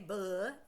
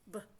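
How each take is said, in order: First: The consonant is followed by a short vowel. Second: The consonant is said with no vowel after. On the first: The speaker calls it wrong. "We don't say buh and duh because that includes vowel sounds with it" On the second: The speaker calls it right. "It's just b"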